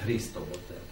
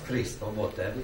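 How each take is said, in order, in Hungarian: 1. A hangsúly a Krisztó keresztnévre esik. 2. A hangsúly a Botev vezetéknévre esik. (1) "és nem" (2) "A külföldieknél is ugyanez a szabály, csak ott fordítva írják"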